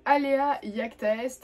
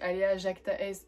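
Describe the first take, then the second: First: The second word starts with a Y sound. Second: The second word starts with a J sound. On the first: This is the Latin pronunciation. "en latin ça se prononce I E" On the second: This is the usual French pronunciation. "en français généralement quand on parle pas latin on dit"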